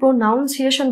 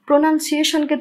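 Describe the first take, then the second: First: The second syllable sounds like noun. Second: The second syllable sounds like nun. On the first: The speaker calls it wrong. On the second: The speaker calls it right.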